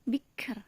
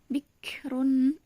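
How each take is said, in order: First: The word stops on the final r sound. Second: The word ends with a vowel and n.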